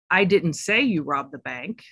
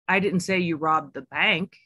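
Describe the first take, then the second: First: The stress is on the word say. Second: The stress is on the word bank.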